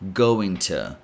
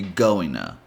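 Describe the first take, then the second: First: The vowel in to is a weak schwa. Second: The t is dropped, blending into an n sound. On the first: "change the O sound in to to a schwa sound" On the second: "eliminate the D and pretty much add an N sound"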